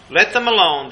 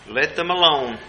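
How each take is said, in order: First: Higher and louder, driving it home; firm louder repeat. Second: Said in the usual way. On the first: Retold or imitated. Preacher voicing Jesus's refusal to back off, raised louder. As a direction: repeat it with force, no backing off. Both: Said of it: "Jesus said".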